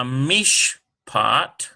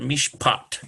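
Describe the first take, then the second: First: Mishpat drawn out syllable by syllable, slow; sounding out. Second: Mishpat run together with the accent on "pat"; stress on PAT. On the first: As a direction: sound out Mish... pat with a gap. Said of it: "We'll put it on the P sound". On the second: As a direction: hit the P, mish-PAT. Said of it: "put it on the P sound". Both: Shown as a demonstration.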